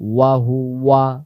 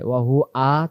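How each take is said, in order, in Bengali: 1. শেষ অক্ষরটি স্পষ্ট w ধ্বনি দিয়ে শুরু হয়। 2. শেষ অক্ষরটি হামজা দিয়ে শুরু হয়। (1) "স্পষ্টভাবে ওয়া চলে আসবে" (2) "মনের অজান্তে ভুল হয়, ওয়া হু আ চলে আসে"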